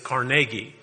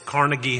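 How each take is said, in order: First: The name is said the Western Pennsylvania way. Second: The name is said the New York way. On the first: "But if you're from Western Pennsylvania, it is Carnegie" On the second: "If you live in New York, it's Carnegie Hall"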